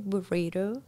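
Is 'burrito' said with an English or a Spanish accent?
English. The word is said with an English accent. The speaker calls it wrong. "I don't say burrito"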